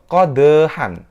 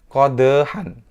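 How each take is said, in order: The two takes are said the same way.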